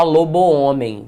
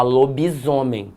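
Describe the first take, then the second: First: "lobo-homem" with both o sounds kept; two separate words. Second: "lobisomem" with i and a z sound linking it; one word, lobi running into zomem; fused compound. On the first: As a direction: lobo in full, then homem, no z between. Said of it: "Você não fala". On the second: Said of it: "você fala". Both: Shown as a demonstration.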